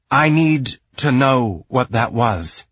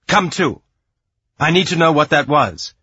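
First: Slow, halting demand, a touch strange; strange, dazed voice. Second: Loud, higher, urgent demand; snapped command. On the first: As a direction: say it slowly, as if your own voice feels unfamiliar. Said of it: "her voice felt strange". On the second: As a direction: snap him out of it, louder and pitched up. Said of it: "she snapped, and it sounded more like her own voice again". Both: A narrator's reading.

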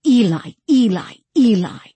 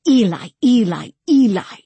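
First: Higher, louder call for Eli; insistent repeated call, raised voice; calling kit call. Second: High, loud cry for Eli; mild scream, raised and insistent; screamed kit call. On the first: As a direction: call out the name like a cat calling. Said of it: "whistled kit call". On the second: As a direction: cry the name out urgently. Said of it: "screamed kit call". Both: A narrator's reading.

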